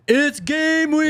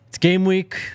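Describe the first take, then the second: First: It is said with high energy. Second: It is said with low energy.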